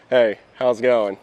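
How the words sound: It is said warmly, with a smile.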